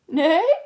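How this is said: The neigh is sad and questioning.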